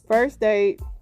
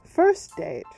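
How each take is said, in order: First: It is said in the speaker's natural accent. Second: It is said in a put-on English accent.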